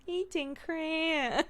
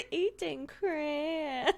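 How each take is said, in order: First: Put-on high, slow toddler voice; a hint of a little kid; imitating toddler. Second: Put-on high, slow little-kid echo; lightly voiced small child; imitating toddler. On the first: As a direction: mimic a toddler's slow reply. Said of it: "she just went". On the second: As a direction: copy the toddler's slow words.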